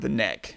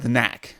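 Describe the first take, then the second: First: The vowel sounds like the one in 'bed'. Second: The vowel sounds like the one in 'cat'. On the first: "because they're Kiwis" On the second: "I think they're saying the knack"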